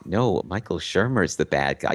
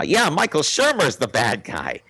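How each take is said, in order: First: Said in the usual way. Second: Higher, dopey parroting voice; dim stormtrooper echo. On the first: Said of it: "Jedi mind trick". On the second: Retold or imitated. [name] parrots the mind trick, dopey high echo. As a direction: repeat it back like a hypnotized dimwit. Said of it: "as dim as a stormtrooper".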